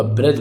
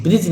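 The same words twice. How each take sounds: First: ब्रज said "braj", lower pitch; short a in the middle of ब्रज; correct a vowel. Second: ब्रिज said "brij"; short i in the middle of ब्रिज; mistaken i vowel. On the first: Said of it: "ब्रज होगा". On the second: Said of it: "नहीं होगा". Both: Shown as a demonstration.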